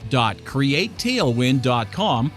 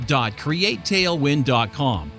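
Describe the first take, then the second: No difference in how they are said.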